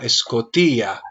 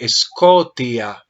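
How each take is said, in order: First: The stress is on the third syllable. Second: The stress is on the second syllable. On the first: The speaker calls it right. "el acento observa que está en la iota" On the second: The speaker calls it wrong. "hiciste acento en la omicron"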